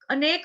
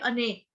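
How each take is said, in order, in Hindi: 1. शब्द एक शुद्ध k ध्वनि पर समाप्त होता है। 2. अंतिम k के बाद एक स्वर आता है। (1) "अनेक नहीं बोला मैंने" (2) "अनेक क पूरा आना चाहिए"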